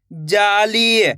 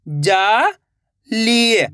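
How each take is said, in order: First: Said in the usual way. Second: जाली stretched very slowly, each sound held long. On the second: Shown as a demonstration. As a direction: drag out जाली for the learner. (जाली को बहुत धीरे खींचकर बोलें) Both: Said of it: "तो मिलके बन जाएगा".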